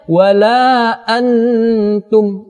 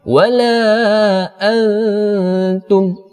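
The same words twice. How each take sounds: First: The n is nasalized but pronounced clearly. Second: The n is blurred and hidden in nasalization. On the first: The speaker calls it wrong. "ini salah ... cuma kita tambahkan dengung, tetapi samarnya tidak ada" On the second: The speaker calls it right.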